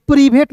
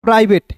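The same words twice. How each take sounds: First: प्रीवेट with EE in the first syllable; wrong pronunciation. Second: प्राइवेट with an "eye" first vowel; correct pronunciation. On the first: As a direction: say private as "pree-bhet", प्रीवेट. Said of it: "प्रीवेट नहीं पढ़ेंगे". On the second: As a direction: say प्राइवेट as "prai-vet". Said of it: "पीआरआई को पढ़ेंगे प्राई". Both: Shown as a demonstration.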